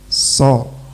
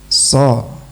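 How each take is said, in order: No difference in how they are said.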